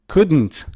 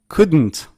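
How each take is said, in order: Both takes have the same delivery.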